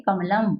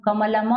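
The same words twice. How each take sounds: First: कमलम closing on a bare m; halant ending. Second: कमलम as "ka-ma-la-ma", final a sounded; wrong voiced ending. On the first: Teacher explaining the halant, word closed on m. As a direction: shut कमलम on m, no final vowel. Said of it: "हलंत है, इसलिए क्या पढ़ेंगे". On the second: Teacher showing the wrong reading, final a sounded. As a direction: add a vowel after the last m of कमलम. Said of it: "अब यहाँ कमलम नहीं पढ़ेंगे". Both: Shown as a demonstration.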